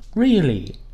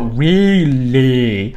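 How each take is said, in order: First: The sounds blend together in one smooth movement. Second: Each sound is articulated separately and exaggerated. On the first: The speaker calls it right. "My mouth just opened and the tongue made the L" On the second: The speaker calls it wrong. "I didn't okay, go really"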